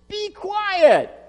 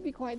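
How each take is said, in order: First: It is yelled loudly. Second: It is said softly and quietly.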